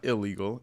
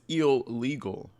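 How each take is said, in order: First: The middle syllable is said the ordinary way. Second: The middle syllable is said like 'eel'. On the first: "It's not illegal" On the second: "Sometimes you have to put the eel"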